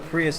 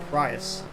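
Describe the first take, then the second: First: It is said with an American pronunciation. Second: It is said with a British pronunciation.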